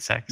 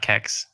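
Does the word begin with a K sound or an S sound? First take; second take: S sound; K sound. First: The word begins with an s sound. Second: The word begins with a k sound. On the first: The speaker calls it right. "Did I say that right?" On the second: The speaker calls it wrong. "It's not Kex"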